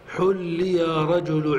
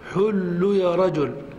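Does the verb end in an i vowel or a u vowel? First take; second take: i vowel; u vowel. First: The verb ends with an i vowel. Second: The verb ends with a u vowel. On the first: "فتحرك آخره بالكسر" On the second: "فحل حاؤه مضمومة، فتتبع فتقول"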